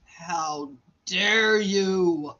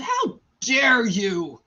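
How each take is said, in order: First: Very slow, lower mock rebuke; drawn-out indignation. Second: Slow, indignant retold rebuke; mock indignation. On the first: Confronting the doctor who walked out, very slow drawn-out indignation. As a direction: stretch every word in hammed-up outrage. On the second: Confronting the doctor who walked out, slow mock indignation. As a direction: draw out the indignant question.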